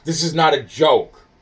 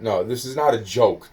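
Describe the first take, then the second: First: Louder and higher, insisting hard; raised voice. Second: Said in the usual way. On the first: Real, not acted. Insisting to the listener taking notes, raised voice. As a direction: push it, you need them to take you seriously. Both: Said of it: "Why are you yelling at me?".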